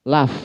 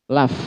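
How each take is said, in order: Both takes have the same delivery.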